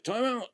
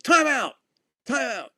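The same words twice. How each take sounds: First: Lightly imitated umpire, pitched high; high but restrained mock call; umpire's timeout call. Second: High, loud acted-out timeout call; sudden high shout, retold. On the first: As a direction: echo the call as an umpire, without full volume. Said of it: "Umpire's like". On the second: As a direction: call it out across a ball field. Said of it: "I called timeout".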